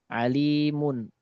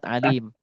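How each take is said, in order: First: The word ends with an added n sound. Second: The word ends without the n sound. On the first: The word is read without stopping on it. "nun yang ditambahkan" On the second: The reader stops on the word. "Kalau kita berhenti"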